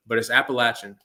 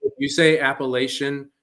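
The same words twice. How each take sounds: First: Appalachian with a short "latch", app-a-LATCH-un; local pronunciation. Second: Appalachian with a long "lay", app-a-LAY-shun; wrong pronunciation. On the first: Correcting friends on how Appalachian is said, app-a-LATCH-un. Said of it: "you're wrong and you might get slapped". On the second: Mocking outsiders who say Appalachian, app-a-LAY-shun. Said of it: "you're wrong". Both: Shown as a demonstration.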